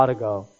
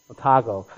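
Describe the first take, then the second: First: Otago with an open "AH" at the front, AH-tuh-go; mispronounced Otago. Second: Otago with the middle stressed, oh-TAH-go; corrected Otago. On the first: Visiting minister tries a local place name, mispronouncing Otago as AH-tuh-go. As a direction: stumble into "Otago", leaning on the first syllable. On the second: Visiting minister corrects himself on the local name, Otago as oh-TAH-go. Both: Real, not acted. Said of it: "Sorry, I'm still working on my".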